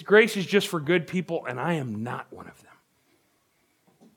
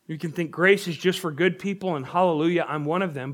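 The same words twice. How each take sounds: First: Slow, resigned and ashamed; dejected. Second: Smug, pleased with yourself; self-satisfied. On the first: Preacher voicing a hopeless sinner, slow and dejected. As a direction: say it like you've given up on yourself. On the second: Preacher voicing a self-righteous churchgoer, smug. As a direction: say it like a proud insider. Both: Shown as a demonstration. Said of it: "it's more like this".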